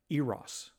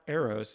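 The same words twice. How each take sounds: First: The name is said the way British narrators say it. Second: The name is said in a usual American way. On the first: The speaker calls it right. "it's Eros" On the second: The speaker calls it wrong. "it's not Eros"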